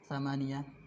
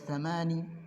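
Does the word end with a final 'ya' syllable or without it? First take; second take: with ya; without ya. First: The word ends with a final 'ya' syllable. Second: The word ends without the final 'ya' syllable. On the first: This is the preferred reading. The speaker calls it right. "yang pertama ini yang paling rojeh" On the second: This reading is allowed but less preferred. The speaker calls it wrong. "Boleh samani, Ya-nya dihilangkan"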